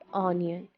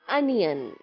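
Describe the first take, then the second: First: The word begins with an 'o' vowel sound. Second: The word begins with a 'u' vowel sound. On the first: The speaker calls it wrong. "A lot of people understand it with the sound O in the beginning. It's not onion" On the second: The speaker calls it right. "It is U S sound from the beginning"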